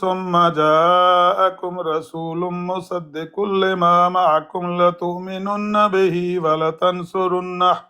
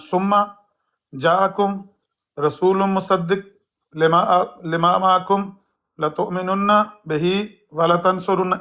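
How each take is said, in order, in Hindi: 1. वाक्यांश सहजता से बहता है, शब्द आपस में जुड़े हुए हैं। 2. वाक्यांश टूटा हुआ है, एक शब्द दोहराया गया है। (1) "ऐसे पढ़ना चाहिए" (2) "ऐसे पढ़ते हैं आपके खलीफा साहब, ये गलत है"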